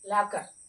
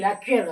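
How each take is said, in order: First: The second syllable is a plain ker sound. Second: The second syllable has a kyoo sound. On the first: The speaker calls it right. "క్యూ silent" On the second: The speaker calls it wrong. "లాక్యూర్ కాదు"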